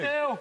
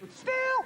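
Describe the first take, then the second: First: The word is said in a low voice. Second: The word is said in a high voice. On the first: "Saying still in a low voice doesn't make it any more true" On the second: "Saying still in a high voice doesn't make it any more true"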